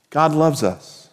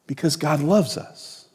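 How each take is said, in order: First: God loves us, slow with the weight on loves; slow emphatic statement. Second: Because God loves us, dropped soft with loves still leaned on; soft repeat. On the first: Pastor stating it slowly to the congregation, loves stressed. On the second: Pastor repeating it softly to the congregation, loves leaned on. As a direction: let it fall softly. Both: Shown as a demonstration.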